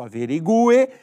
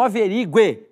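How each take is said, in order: First: "Averigue" with the u as its own stressed syllable; "Averigue" with GU held apart from the final e; correct pronunciation. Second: "averigue" ending in a quick gliding gwe; "averigue" as a-ve-RI-gwe, stress before the glide; wrong pronunciation. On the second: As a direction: run the u of "averigue" into the final e. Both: Shown as a demonstration. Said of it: "Nunca houve isso".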